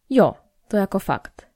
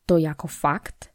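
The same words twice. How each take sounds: First: "Jo" falling, then "to jako fakt" as a statement; confirming. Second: "To jako fakt" slow, as a doubting question. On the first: Olga confirms the affair to Magda, "to jako fakt" said as confirmation. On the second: Magda questions Olga's news of a lover, "To jako fakt" asked slowly in doubt. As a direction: ask "To jako fakt" slowly, wanting confirmation. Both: A narrator's reading.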